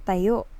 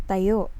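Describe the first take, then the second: No difference in how they are said.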